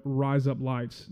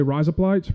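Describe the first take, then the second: First: "Rise up lights" stretched long, each word separate; slow and drawn out. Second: "Rise up lights" squished together, quick and louder; real fast. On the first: Showing the crowd the long way of saying it, slow and separated. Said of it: "that long". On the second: Teaching the crowd Aussie slang, real fast and run together. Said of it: "real fast". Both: Shown as a demonstration.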